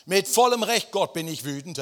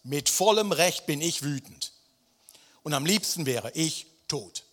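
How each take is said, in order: First: High, loud outburst at God; furious shout. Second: Angry Jona. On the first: Jona yelling his anger at God, loud and high. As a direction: shout your right to be angry. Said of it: "das gefällt mir". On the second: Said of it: "Vers neun". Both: Acted.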